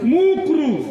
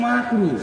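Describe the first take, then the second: First: The first vowel is a 'u' sound. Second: The first vowel is an 'a' sound. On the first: The speaker calls it wrong. "কি বলে? মুকরু।" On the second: The speaker calls it right. "আসলে এটা মাকরু।"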